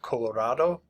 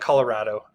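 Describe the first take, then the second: First: The name is said closer to its Spanish pronunciation. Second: The name is said with a local English pronunciation. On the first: This is closer to the name's original form. "more correctly pronounced" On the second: This is how locals usually say it. "we call it"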